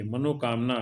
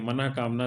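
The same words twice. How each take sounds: First: मनोकामना said as manokaamna, with an o sound; मनोकामना with the o vowel and no h; the common wrong मनोकामना; wrong pronunciation. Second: मनःकामना said as manahkaamna, with a breathy h after na; the correct मनःकामना with its visarga; correct pronunciation. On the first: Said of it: "गलत है". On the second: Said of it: "सही है". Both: Shown as a demonstration.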